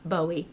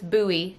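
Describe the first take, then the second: First: The first syllable sounds like 'bow'. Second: The first syllable sounds like 'boo'. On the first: The speaker calls it wrong. "not Bowie, my bad" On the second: The speaker calls it right. "you actually pronounce this buoy"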